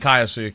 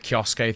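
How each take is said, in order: First: The name begins with two syllables, 'Kai-o'. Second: The name begins with one syllable, 'Kyo'. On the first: The speaker calls it right. "it's definitely Kaiosuke" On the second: The speaker calls it wrong. "That is definitely wrong"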